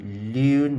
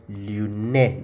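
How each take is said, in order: First: "lune" as one long syllable ending on N; silent final E. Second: "lune" in two syllables, loo-NEH; wrongly voiced final E. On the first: Teacher showing the French word for learners, "lune" with silent E. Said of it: "the E is not pronounced". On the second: Teacher showing learners the mistake to avoid, "lune" said as loo-neh. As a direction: sound the last E of "lune" as a clear "neh". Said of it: "not lune, no". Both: Shown as a demonstration.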